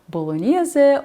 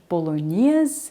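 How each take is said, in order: First: It is said with an Italian pronunciation. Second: It is said with an English pronunciation. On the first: "the Italian pronunciation" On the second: "the English"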